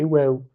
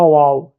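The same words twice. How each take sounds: First: "waw" with a fronted "è" vowel; "waw" said as the Arabic letter name; correct pronunciation. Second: "waw" as a loud, open "wa-ou"; "waw" with a wide A, the mistaken way; wrong pronunciation. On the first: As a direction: say "waw" as "wè-ou", not wow. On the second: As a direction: say "waw" like an exclamation wow, louder. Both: Shown as a demonstration. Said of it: "c'est pas waw, c'est waw".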